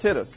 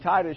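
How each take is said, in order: First: The syllable break comes after the T: Tit-us. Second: The syllable break comes after the vowel: Ti-tus. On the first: "she separated it after the T" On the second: "rather than saying Titus"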